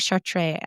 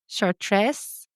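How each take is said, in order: First: The final S sound is left silent. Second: The final S sound is pronounced. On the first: "I bet you don't say the S at the end" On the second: "Probably not that"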